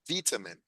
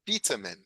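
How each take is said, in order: First: It is said with a British pronunciation. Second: It is said with a British pronunciation.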